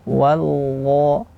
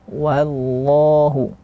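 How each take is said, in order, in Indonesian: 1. Suku kata pertama wa itu ringan dan tipis. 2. Suku kata pertama wa itu ringan dan tipis.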